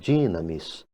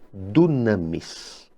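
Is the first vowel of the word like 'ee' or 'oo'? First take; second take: ee; oo. First: The first vowel sounds like 'ee'. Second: The first vowel sounds like 'oo'. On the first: This is perhaps the modern Greek reading. "talvez no grego moderno a pronúncia seja é, diferente" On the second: This is the ancient Koine Greek reading. "lemos no grego koiné"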